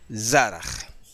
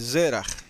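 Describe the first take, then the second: First: The first vowel is an 'a' sound. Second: The first vowel is an 'e' sound. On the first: The speaker calls it right. "la vocal primera es A y no E, es Zaraj" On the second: The speaker calls it wrong. "algunos escriben Zeraj"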